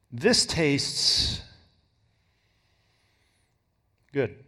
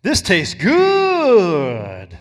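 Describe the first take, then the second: First: THIS stressed, then tastes good trailing off low. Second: Savoring stress on good. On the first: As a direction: lean on the word This, let the rest drop. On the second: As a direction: stretch the word good long and loud. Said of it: "compared to". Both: Shown as a demonstration.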